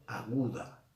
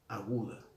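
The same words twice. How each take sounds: The two takes are said the same way.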